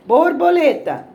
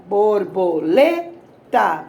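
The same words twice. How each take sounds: First: Said in the usual way. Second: "borboleta" slowly split, LE punched; bor-bo-LE-ta with gaps, hit LE hardest; syllable by syllable. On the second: Shown as a demonstration. Teacher showing the tonic syllable of "borboleta", LE stressed in slow pieces. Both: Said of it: "Pode ser falando ou batendo palma".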